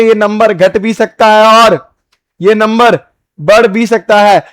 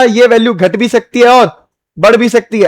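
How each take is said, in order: First: Slower, with pauses between the parts; slow repeat. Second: Said in the usual way. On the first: Shown as a demonstration. Teacher to students, repeating the point slowly. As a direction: spell it out slowly for the class. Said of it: "teacher repeats it slowly". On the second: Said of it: "teacher restates the point".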